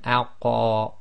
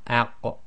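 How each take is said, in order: First: The final q is released with a strong vowel-like echo. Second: The final q is released with a slight echo. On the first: The speaker calls it wrong. "you don't want aq" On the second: The speaker calls it right. "you just want aq"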